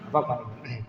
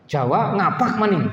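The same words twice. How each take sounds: First: "Ngapak maning" dropped soft and low as a rueful aside; muttered repeat. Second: "ngapak maning" said slow and raised, a mocking punch; emphatic ngapak maning. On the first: Teacher repeating his joke to himself, softly muttered. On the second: Teacher mocking students who mix Arabic with ngapak, slow and raised. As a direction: lean on "maning" slowly, teasing the mixed dialect. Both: Shown as a demonstration. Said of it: "lanjutannya nanti ngapak".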